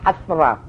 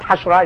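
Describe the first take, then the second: First: The middle consonant is a 'th' sound. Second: The middle consonant is a 'sh' sound. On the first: The speaker calls it right. "it's Hathra" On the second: The speaker calls it wrong. "It's not Hashra"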